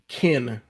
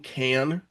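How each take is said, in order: First: The vowel is a short, weak 'i' sound. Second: The vowel is a full, open 'a' sound. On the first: "I'll say kin" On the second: "instead of saying can"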